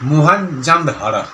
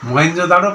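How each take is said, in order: First: The name is said in its full, separated form. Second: The name is said in its blended, shortened form. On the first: This is the original form of the name. "অ্যাকচুয়ালি মোহেনজোদাড়ো" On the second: This is the later, worn-down form of the name. "মহেঞ্জোদাড়ো কথাটা actually"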